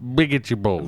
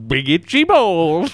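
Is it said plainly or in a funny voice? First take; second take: plainly; funny voice. First: It is said in a plain voice. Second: It is said in a funnier voice.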